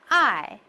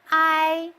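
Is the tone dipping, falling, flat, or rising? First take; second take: falling; flat. First: The pitch falls sharply from high to low. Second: The pitch stays level and high. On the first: "The fourth goes from the top to the lowest" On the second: "The first tone is flat"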